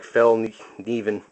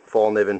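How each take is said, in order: First: The first syllable sounds like 'fell'. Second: The first syllable sounds like 'fall'. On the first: The speaker calls it right. "It's more like Fell Niven" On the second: The speaker calls it wrong. "I'm not saying it right again"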